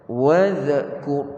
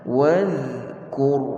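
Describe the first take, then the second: First: The dh sound ends with a small bounce. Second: The dh sound is held without a bounce. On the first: The speaker calls it wrong. "Bacaan yang salah wadh, wadhkur. Ha, tak betul" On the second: The speaker calls it right. "Sepatutnya wadhkur"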